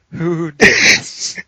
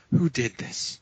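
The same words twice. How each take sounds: First: Slow, high, loud mock outrage; imitated accusing yell. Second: Softer, mock-outraged question; imitated accusing demand. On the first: Gym lifter demanding who farted, yelling slowly in mock outrage. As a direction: stretch it into a booming accusation. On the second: Gym lifter hunting whoever farted, restrained mock outrage. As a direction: demand the culprit, holding the volume back. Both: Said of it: "he's yelling at everyone around him".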